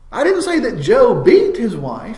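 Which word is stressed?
beat. The word beat carries the main stress. He did something milder than that to her. "he might have smacked her around, but he didn't really beat her"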